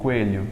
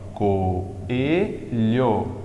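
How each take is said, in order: First: The first two vowels merge into one syllable. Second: The first two vowels form separate syllables. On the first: This is how it is said in Portugal. "eles pronunciam como se fosse ditongo" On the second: This is how it is said in Brazil. "como é que tu fala aqui, ó?"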